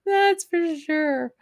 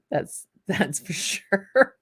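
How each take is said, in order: First: Much higher, slow, jokey repeat; high comic voice. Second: Chuckling through the words; laughing. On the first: Pretend. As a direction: squeak it out as a playful echo. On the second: Real, not acted. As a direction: say it while laughing at the joke. Joking about Amazon delivering liquor.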